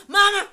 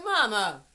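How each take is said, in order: First: High, explosive mock shout; raised voice at mama. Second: Raised voice calling mama, short of full shouting; firm but respectful. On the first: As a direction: yell it as the disrespectful version. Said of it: "never raise my voice at my mama". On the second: Acted. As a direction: check your mother loudly without crossing the line. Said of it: "mama heard my voice, but I was, I did not cross the line".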